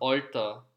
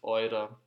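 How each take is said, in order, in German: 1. Das Wort wird mit o und t gesprochen. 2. Das Wort wird mit eu und weichem d gesprochen. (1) "In Westösterreich ... sagt man Olter" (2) "in Ostösterreich werden die harten Ts meistens in weichen Ds ausgesprochen"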